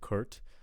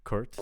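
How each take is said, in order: First: The vowel sounds like 'er', as in Kurt. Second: The same.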